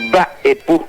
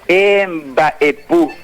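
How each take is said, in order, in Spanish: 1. Empieza directamente con el sonido mb, con los labios cerrados. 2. Empieza con una vocal e añadida antes de mb. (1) "Esa es la forma correcta de pronunciar" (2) "le antepone una letra E que no existe"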